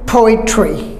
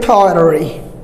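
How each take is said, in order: First: The middle t is a clear t. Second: The middle t sounds like a soft d. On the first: "British will say poetry" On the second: "Americans say pottery"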